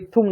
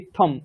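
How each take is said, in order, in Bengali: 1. শেষ m-এর আগের স্বরটি 'u'। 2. শেষ m-এর আগের স্বরটি 'a'। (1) "ওটা ইত্থুম না" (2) "ইত্থম, তয় থয় ম"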